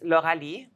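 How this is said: The name is pronounced the French way. "That's how you say it in French"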